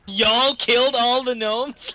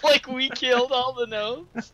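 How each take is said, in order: First: Y'all drawn out and punched, slow disbelieving question; slow mocking question, weight on "Y'all"; mock incredulous stress on Y'all. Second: "we" punched in a slow, higher question; slow disbelieving question, weight on "we"; mock incredulous stress on we. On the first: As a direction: lean hard on "Y'all". Mocking repeat of the accusation. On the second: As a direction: lean hard on "we". Corrects who did the killing.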